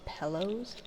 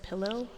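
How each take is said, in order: First: The first vowel is an 'eh' sound. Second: The first vowel is the usual 'ih' sound. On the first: "So like with an E" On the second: "instead of pillow"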